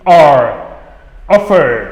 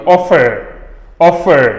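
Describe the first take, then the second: First: "R" and "Offer" ending in a curled-tongue R; demonstrating retroflex R in "R" and "Offer". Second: R-less "Offer", final vowel held; silent final R. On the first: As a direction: curl the tongue back on the R of "Offer". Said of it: "le R rétroflexe". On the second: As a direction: stretch the last vowel of "Offer" and drop the R. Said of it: "On tire sur la voyelle qui vient juste avant". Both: Shown as a demonstration.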